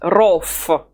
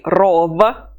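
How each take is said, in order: First: The final V loses its voice. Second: The final V keeps its voice. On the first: The speaker calls it right. "the V loses its voice if it's at the end of the word" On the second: The speaker calls it wrong. "we don't say rov"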